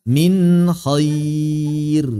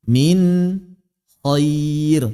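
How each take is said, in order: No difference in how they are said.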